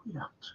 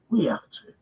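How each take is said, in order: First: Breathy whispered repeat. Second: Said in the usual way. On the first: Real, not acted. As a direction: whisper it as a vow. Repeats it under his breath.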